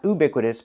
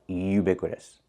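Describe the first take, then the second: First: The word begins with a plain 'oo' sound. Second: The word begins with a 'you' sound. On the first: The speaker calls it wrong. "Not oo" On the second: The speaker calls it right. "but you. We need the y, y sound"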